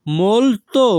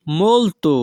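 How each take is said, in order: First: Molto drawn out and higher, "mol-to"; careful repetition. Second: Said in the usual way. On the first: Shown as a demonstration. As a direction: stretch both syllables of molto, pitch raised. Teacher repeats word carefully for learners.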